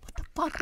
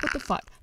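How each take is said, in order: First: Breathless whispered disbelief; shocked whisper. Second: Said in the usual way. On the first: Real, not acted. Stunned reaction to parole news.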